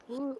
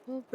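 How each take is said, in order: The two takes are said the same way.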